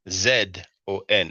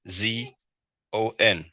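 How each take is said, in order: First: The letter Z is said as 'zed'. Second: The letter Z is said as 'zee'.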